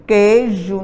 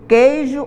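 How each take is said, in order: First: Said in the usual way. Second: Queijo said as "kei-jo", sounding the i in the first syllable; careful "kei-jo", every vowel sounded; spelled-out pronunciation. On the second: Shown as a demonstration. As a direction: queijo pronounced letter by letter, "kei-jo". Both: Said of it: "eu pronuncio queijo ou queijo?".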